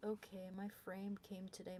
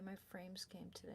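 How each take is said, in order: First: Said in the usual way. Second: Soft unvoiced whisper. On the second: Real, not acted. Repeating her frames news to the camera, whispered. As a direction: breathe it out in a whisper.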